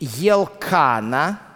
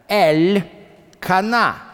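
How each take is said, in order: First: The name begins with a 'ye' sound. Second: The name begins with a separate 'el' syllable. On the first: This is the usual Russian form of the name. The speaker calls it wrong. "так это по-русски звучит" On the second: The name contains the word for God. The speaker calls it right. "но это не Елкана, это Эль-Кана"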